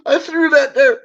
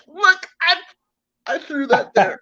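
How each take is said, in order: First: High repeat, stress on "that", laughing through it. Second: High, innocent-sounding plea, half laughing; mock innocent. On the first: Retold or imitated. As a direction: laugh while repeating the excuse, leaning on "that". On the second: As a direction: play dumb, voice pitched up. Mock innocent excuse to cops.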